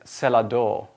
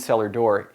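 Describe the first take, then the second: First: It is said in an imitated older-style accent. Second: It is said in the speaker's own everyday accent. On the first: "which is how he would have pronounced it" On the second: "he didn't mean cellar door"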